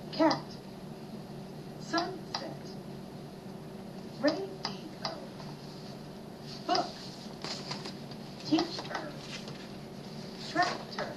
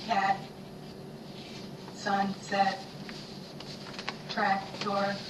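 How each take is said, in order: First: Each word split into clapped syllables. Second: Even, chopped robot syllables; robot speak. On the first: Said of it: "Clap with me as I say these words". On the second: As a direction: chop each word into pieces like a robot. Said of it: "say these words like the robot". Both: Shown as a demonstration.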